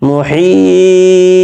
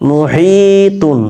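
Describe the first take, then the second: First: "মুহিত" with a very long, high, level ee and a bounced final t; long stretched vowel. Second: "মুহিতুন" with a moderately held ee, running on into "তুন"; slow recited "মুহিতুন", no stop before the ending; joined reading. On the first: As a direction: hold "হি" in "মুহিত" three counts, then release "ত". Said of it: "থেমে গেলে এখানে তিন আলিফ পরিমাণ টান দিব". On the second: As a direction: stretch "হি" in "মুহিতুন" one count, higher, and finish on "তুন". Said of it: "হি এখানে এক আলিফ পরিমাণ টান দিতাম". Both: Shown as a demonstration.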